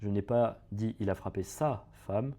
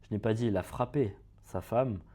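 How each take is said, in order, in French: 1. Le mot « sa » porte l'accent. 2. Le mot « frappé » porte l'accent. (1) "il a frappé la femme de quelqu'un d'autre" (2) "on dit qu'il a fait quelque chose d'autre à sa femme"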